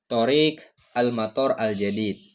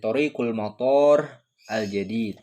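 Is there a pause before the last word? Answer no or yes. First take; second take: no; yes. First: It runs on with no pause before the last word. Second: There is a pause before the last word. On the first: The airport is the new one. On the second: The road is the new one.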